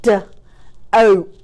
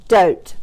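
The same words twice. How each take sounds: First: "D, oat" split into separate sounds; chopped-out word. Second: Said in the usual way. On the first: Shown as a demonstration. Teacher repeating a word for pupils, chopped apart. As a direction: sound out DOTE with gaps. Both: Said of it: "let's do one more".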